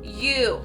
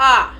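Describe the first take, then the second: First: The vowel is said like its letter name. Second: The vowel is said with its short sound. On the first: "long vowels say their own names" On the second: "the short vowels say the other sounds"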